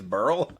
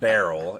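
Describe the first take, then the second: First: The name has one syllable, like burl. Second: The name has two syllables, like barrel. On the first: The speaker calls it right. "maybe it's burl" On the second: The speaker calls it wrong. "it's B E R Y L, by the way, not barrel"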